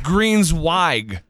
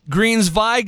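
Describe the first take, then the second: First: The middle consonant sounds like a W. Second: The middle consonant sounds like a V. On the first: The speaker calls it right. "No, it's a W" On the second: The speaker calls it wrong. "like the W is pronounced as a V"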